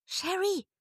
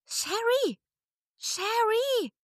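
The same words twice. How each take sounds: First: High, loud call from outside. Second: High, louder call from outside. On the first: Friend calling Sherry from outside, loud call. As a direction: call her name from a distance. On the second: Friend calling Sherry from outside, louder call. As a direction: keep calling her name across the distance. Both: A narrator's reading. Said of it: "rief eine wohlbekannte Stimme".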